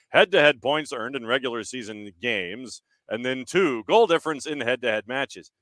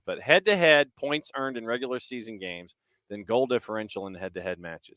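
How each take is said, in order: First: It is read in a put-on reading voice. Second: It is said in his normal speaking voice.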